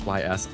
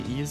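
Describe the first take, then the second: First: The name is spelled out as two letters. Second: The name is said as one word, 'ease'. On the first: The speaker calls it right. "I think it's pronounced as Y S" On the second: The speaker calls it wrong. "did you say Ease?"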